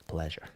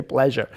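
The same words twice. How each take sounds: First: "Pleasure" said low and much softer. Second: Said in the usual way. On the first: Shown as a demonstration. Teacher quietly models a polite goodbye, softly. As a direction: drop the voice and murmur "Pleasure". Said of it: "You say". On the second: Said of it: "you say".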